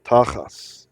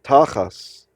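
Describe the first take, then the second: First: The word ends with an S sound. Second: The word ends with an S sound.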